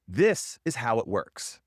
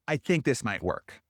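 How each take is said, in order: First: Slow, firm statement with a falling end; firm declarative. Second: Hedging. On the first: Coach showing a client a certain statement, slow and firm. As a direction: state it as fact, slowly, no doubt. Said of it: "Speak in declaratives". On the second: Coach showing a client the hedge to avoid, tentative. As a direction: let doubt creep into "I think". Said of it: "instead of". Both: Shown as a demonstration.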